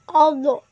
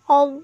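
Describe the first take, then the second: First: The final consonant is released with a bouncing vowel. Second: The final consonant is held firmly without bouncing. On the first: The speaker calls it wrong. "Tidak boleh ya, itu bacaan salah" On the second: The speaker calls it right. "Yang benarnya"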